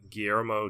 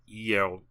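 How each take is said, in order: First: The opening G is sounded. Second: The opening G is silent. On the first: The speaker calls it wrong. "for me saying Guillermo del Toro" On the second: The speaker calls it right. "he says the G is silent, so I should be saying"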